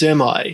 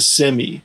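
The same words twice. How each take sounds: First: The word ends with a long I sound. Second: The word ends with an ee sound. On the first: "semi with a long I sound" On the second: "Brits, Aussies, and Canadians, for the most part, pronounce it as semi"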